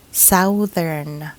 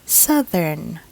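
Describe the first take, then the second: First: Southern as SOW-thern, like south; mispronunciation. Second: Southern as SUH-thern; short UH vowel in southern, drawn out slowly; correct pronunciation. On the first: Teacher shows the wrong reading, southern as SOW-thern. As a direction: say southern with an OW vowel. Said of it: "this word is not read". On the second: Teacher models the correct word, southern as SUH-thern. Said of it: "we should say southern". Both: Shown as a demonstration.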